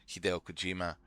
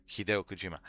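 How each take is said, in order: Both takes have the same delivery.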